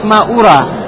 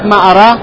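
First: The second word begins with a 'u' vowel. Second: The second word begins with an 'a' vowel. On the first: I do not think so. "«Ваядюд Дамму», а можно прочитать «Маура»" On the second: I do not know. "Можно прочитать «Маара»"

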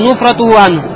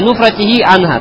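First: The ending after nufrat has the vowel u. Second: The ending after nufrat has the vowel i. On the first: The speaker calls it wrong. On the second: The speaker calls it right.

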